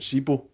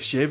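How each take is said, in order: First: The middle consonant is a 'b' sound. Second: The middle consonant is a 'v' sound. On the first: This is the form fans commonly use. The speaker calls it wrong. "you still hear the Celtic fans chanting Sebo" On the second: This is the actual form of the name. The speaker calls it right. "that's actually Shevo or something. The B's pronounced as a V"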